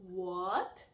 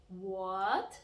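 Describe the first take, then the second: The two takes are said the same way.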